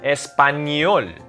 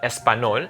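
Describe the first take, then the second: First: The consonant before o is a ny sound. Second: The consonant before o is a plain n. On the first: The speaker calls it right. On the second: The speaker calls it wrong.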